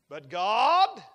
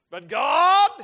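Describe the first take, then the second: First: "But God" pressed firm and loud; first "But God". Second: "but God" much louder and higher, rising; climactic "but God". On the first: Preacher repeating to his flock, firm loud "But God". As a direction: hit "God" with a falling close. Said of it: "but God repeated with more force". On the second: Preacher building to a climax for the congregation, ringing "but God". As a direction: lift "God" into a ringing cry. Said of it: "repeated, building". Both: Shown as a demonstration.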